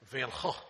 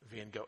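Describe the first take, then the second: First: The name is said with a Dutch pronunciation. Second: The name is said with an English pronunciation. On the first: The speaker calls it right. "It actually" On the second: The speaker calls it wrong. "I know that that is the English way we say it, and it's dead wrong"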